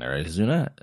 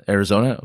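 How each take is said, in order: First: Arizona mispronounced with "oo" for the "o"; tongue slips to "zoo" in Arizona. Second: Said in the usual way. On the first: Real, not acted. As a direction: say Arizona as "air-ih-ZOO-nuh". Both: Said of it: "I must be tired".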